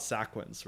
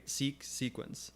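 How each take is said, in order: First: "sequence" said as SACK-wence; mispronounced like "sack". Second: "Seek, sequence" slowly, both with a long ee; long ee pronunciation. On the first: Streamer rejecting a viewer's suggestion, "sequence" said SACK-wence. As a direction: say "sequence" with "sack" as its first syllable. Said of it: "rather pronounced like sack than seek". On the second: Streamer justifying pronunciation to viewers, "Seek, sequence" with long ee. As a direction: show that "Seek" is the start of "sequence", SEEK-wence. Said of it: "the reason I pronounce it seek". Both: Shown as a demonstration.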